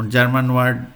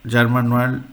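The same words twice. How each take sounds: The two takes are said the same way.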